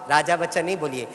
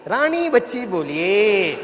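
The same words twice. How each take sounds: First: Said in the usual way. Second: "रानी बच्ची" drawn out slowly and emphatically; बेटी का सुधार. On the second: Retold or imitated. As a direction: stretch "Rani" as the daughter's playful correction. ("रानी बच्ची" पर ज़ोर, लंबा खींचकर) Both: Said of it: "बेटी खड़े होकर कहती".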